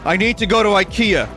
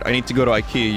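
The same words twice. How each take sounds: First: It is said more loudly. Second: It is said at a normal volume.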